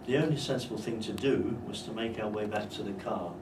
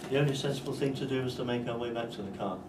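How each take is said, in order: First: It is split into two phrases after 'do'. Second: It runs on as one single phrase. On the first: The speaker calls it right. "That's obviously a good idea there" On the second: The speaker calls it wrong. "if you make it one intonation unit"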